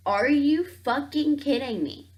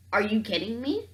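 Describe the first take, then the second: First: Raised, higher exasperated outburst; are you fucking kidding me, pushed up and louder; louder disbelief. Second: Said in the usual way. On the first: Real, not acted. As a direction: hit it with real disbelief.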